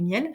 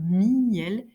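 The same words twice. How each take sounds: First: The word is said as one syllable. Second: The word is said as two syllables. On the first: "notre façon habituelle de prononcer" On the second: "je peux exagérer la distinction"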